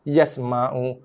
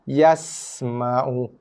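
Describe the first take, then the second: First: The s sound is cut short without hissing. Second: The s sound is hissed and drawn out. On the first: The speaker calls it wrong. "Tak nak yasma'u ... Tak sempat berdesir pun sin tu" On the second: The speaker calls it right. "panjangkan, lajakkan sikit bunyi desiran tu"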